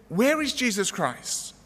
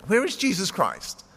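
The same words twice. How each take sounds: First: Slow, high-pitched careful enunciation; drawn-out question, pitched up for clarity; slower, more deliberate. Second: Higher, mildly projected question; a touch of pleasant projection; loud, pleasant asking. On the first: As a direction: repeat it slowly, each word made clear. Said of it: "A little bit more slowly, a little bit more loudly". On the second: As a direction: ask it pleasantly, pitched up a little. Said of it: "He asked with his loud, pleasant voice". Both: A narrator's reading.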